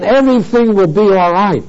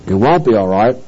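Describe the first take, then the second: First: Imitating a breezy promise, slightly raised pitch; easy assurance. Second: Low-pitched, sober denial; firm contradiction. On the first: Organizations promising new believers all is fine, mock assurance. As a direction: voice their confident claim lightly. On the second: Real, not acted. Preacher refuting the organizations' promise, firm contradiction.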